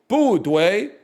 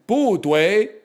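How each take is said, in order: Both takes have the same delivery.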